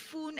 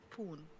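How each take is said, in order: First: The name begins with an F sound. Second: The name begins with a P sound. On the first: The speaker calls it wrong. "foon as in uh, P H with a F" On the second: The speaker calls it right. "I think he means poon. So it's poon"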